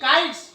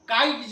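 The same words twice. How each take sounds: First: The word ends with an s sound. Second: The word ends with a z sound. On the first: The speaker calls it right. "स" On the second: The speaker calls it wrong. "काइट्स नहीं, ज नहीं"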